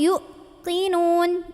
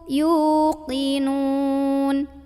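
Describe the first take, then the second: First: The first syllable is pressed and cut short. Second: The first syllable is held long without pressure. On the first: The speaker calls it wrong. "yu ditekan gitu" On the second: The speaker calls it right. "nggak usah ditekan, tapi dipanjangkan dua harokat"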